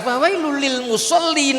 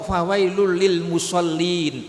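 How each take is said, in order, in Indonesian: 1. Bacaan terus berlanjut melewati musallin tanpa berhenti. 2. Bacaan berhenti tepat setelah musallin. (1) "Harus diwasalkan" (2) "mandek di situ enggak boleh"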